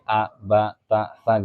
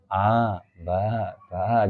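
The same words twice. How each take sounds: First: "a, ba, ta, sa" short and separate; one beat each. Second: Put-on drawn-out "a, ba, ba", like children reading; meniru bacaan anak-anak. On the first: Shown as a demonstration. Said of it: "atau satu gerakan begini". (a, ba, ta, sa satu ketukan) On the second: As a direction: stretch each of "a, ba, ba" too long. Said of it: "kalau anak-anak ya, itu ada yang". (a, ba, ba dipanjangkan)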